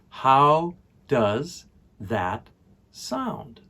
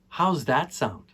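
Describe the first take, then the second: First: The word 'does' is said in full. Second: The word 'does' is shortened to an s.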